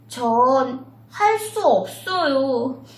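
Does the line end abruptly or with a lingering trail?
lingering. The line trails off with a lingering ending. The speaker calls it right. "바로 대사를 치는 게 아니라 여운을 치면서"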